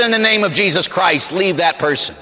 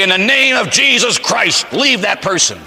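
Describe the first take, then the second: First: Higher-pitched, mildly exasperated exorcist's order; insistent repeated command. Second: High, slow, commanding proclamation; exorcist's command. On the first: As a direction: insist on it, raised pitch easing off. Repeats exorcism command after being laughed at. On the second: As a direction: order the demon out in a raised voice. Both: Retold or imitated.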